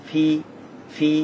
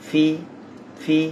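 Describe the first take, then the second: The two takes are said the same way.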